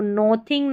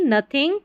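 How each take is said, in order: First: "nothing" as NO-thing, long O; "nothing" with the vowel of "go"; wrong pronunciation. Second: "nothing" as NUH-thing; "nothing" starting like "nut"; correct pronunciation. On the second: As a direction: say "nothing" with a short "uh" first vowel. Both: Shown as a demonstration. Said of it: "nothing नहीं".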